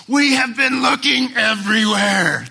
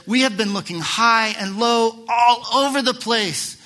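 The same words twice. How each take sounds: First: High, loud frantic cry; Mary's loud cry. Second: High, loud anxious call; Mary's loud cry. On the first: Mary calling out to her son, high and loud. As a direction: cry it out across the temple square. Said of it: "everybody in the temple square probably heard". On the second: Mary crying out to Jesus, high and loud. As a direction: call it out so the whole courtyard hears. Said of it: "that's the translation". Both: Retold or imitated.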